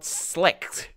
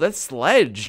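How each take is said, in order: First: The word ends with a harsh 'kht' sound. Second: The word ends with a soft 'j' sound. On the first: The speaker calls it wrong. "Not slecht" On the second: The speaker calls it right.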